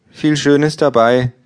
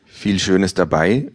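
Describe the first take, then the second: First: Hoch und langsam, lustlos; lustlose Buchhändlerin. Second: Said in the usual way. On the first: Acted. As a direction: eine gelangweilte Verkäuferin, gedehnt. Bookseller voiced, high pitch. (Buchhändlerin lobt lustlos, hoch und langsam)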